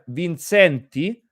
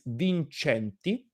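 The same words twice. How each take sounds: First: The name is said American-style. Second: The name is said Italian-style. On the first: The speaker calls it wrong. "you call yourself Vincenti" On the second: The speaker calls it right. "the real pronunciation in Italian is Vincenti"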